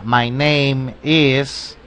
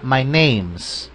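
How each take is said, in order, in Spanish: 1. Las palabras se dicen completas y por separado. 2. Las dos últimas palabras se unen en una sola sílaba. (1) "Escuchemos la diferencia" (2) "con el apóstrofe se escucharía"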